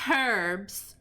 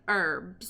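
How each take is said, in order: First: It is said with a British pronunciation. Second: It is said with an American pronunciation. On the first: "they also say herbs" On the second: "instead of herbs"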